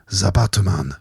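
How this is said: It is said in an imitated Japanese accent.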